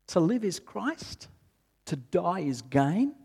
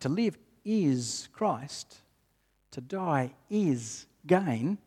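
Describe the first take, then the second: First: It is read in a doubtful, questioning tone. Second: It is read in a firm, assured tone. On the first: The reader is unsure the statement is true. "Sometimes we read it in a really questioning sort of way" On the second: The reader fully believes the statement. "So how do we read it confidently?"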